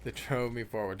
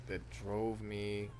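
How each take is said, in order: First: Firmer, clearer redo with drive on "drove"; a corrected second try, punching "drove"; confident retake. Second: Slow, dragged-out delivery; a failed first try, mumbled slowly; botched take. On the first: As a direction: say it again like you mean it. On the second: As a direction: let the line stall and sag. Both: Shown as a demonstration. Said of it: "That was terrible".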